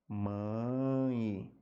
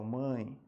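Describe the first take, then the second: First: "Mãe" stretched long so the final i glide is heard; phonetic demonstration. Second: Said in the usual way. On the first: Shown as a demonstration. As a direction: draw out "Mãe" slowly into its i sound. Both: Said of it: "Transcrição fonética".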